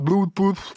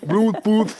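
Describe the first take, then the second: First: The word is mangled, with an awkward tongue. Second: The word is pronounced plainly and smoothly. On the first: The speaker calls it wrong. "Il savait pas où mettre la langue" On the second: The speaker calls it right. "C'est Bluetooth"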